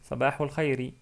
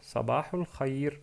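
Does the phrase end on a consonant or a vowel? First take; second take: vowel; consonant. First: The phrase ends with a short final i vowel. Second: The phrase ends sharply on the final consonant. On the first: "il y a une kasra à la fin, donc on peut prononcer Sabahul Khairi" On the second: "ils s'arrêtent sur une soukoun"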